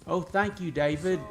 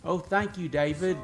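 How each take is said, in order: First: It is said in an attempted Australian accent. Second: The same.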